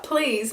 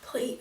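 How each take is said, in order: First: Mock shout, a bit louder; retold shout. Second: Retold plea. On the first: Reviewer retelling the moment he shouted out, mild mock shout. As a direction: imitate him shouting out in desperation. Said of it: "he shouted out". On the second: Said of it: "he's going".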